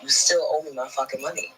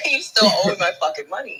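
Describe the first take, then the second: First: Said in the usual way. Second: Repeating the threat through real laughter; laughing. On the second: Real, not acted. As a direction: laugh your way through the line.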